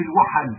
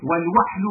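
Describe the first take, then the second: First: Said in the usual way. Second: والوحل with no vowel after the h, "wahl"; sukun variant. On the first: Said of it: "لغة في الوحل". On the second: Shown as a demonstration. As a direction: close the first syllable of والوحل on the h. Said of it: "بالسكون لغة في الوحل".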